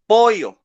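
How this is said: It is said in a Peruvian accent. "she's from Peru, and she says pollo"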